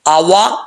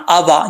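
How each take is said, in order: First: The w sound is made with rounded lips. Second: The w sound is made without rounded lips. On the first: The speaker calls it right. "वाव को होंठ गोल करके पढ़ेंगे" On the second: The speaker calls it wrong. "आवा ये गलत है"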